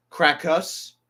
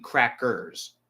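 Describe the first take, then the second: First: "Crackers" as "crack-us", rising like a question; puzzled echo of r-less "Crackers"; questioning mispronunciation. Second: "crackers" with a clearly sounded final r; pointed correction, full r in "crackers"; corrected pronunciation. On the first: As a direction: query it higher, r dropped from "Crackers". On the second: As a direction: say "crackers" carefully as "crack-ers". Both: Shown as a demonstration. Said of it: "I think you mean crackers".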